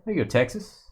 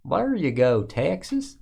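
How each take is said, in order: First: Said in the usual way. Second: Hammed-up Texas accent, lifting on "Texas"; mock Texas drawl. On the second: Repeating the Texas card call as a joke, mock Texas drawl. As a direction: stretch "Texas" into a playful twang.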